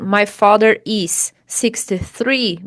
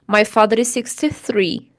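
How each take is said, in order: First: The two S sounds are said separately. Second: The two S sounds merge into one. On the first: "Em vez de você dizer assim" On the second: "você fala"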